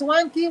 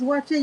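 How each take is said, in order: First: The word sounds like 'one K'. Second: The word sounds like 'watchy'. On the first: "he's calling it one K" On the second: "It's Wachi you're talking about"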